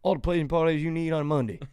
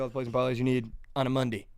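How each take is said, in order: First: It is said in a Southern drawl. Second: It is said in his ordinary accent.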